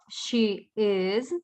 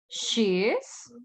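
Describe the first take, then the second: First: The verb is said as a separate word. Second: The verb is contracted onto the pronoun. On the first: "La forma completa o the long form" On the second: "en la forma corta o contractor form"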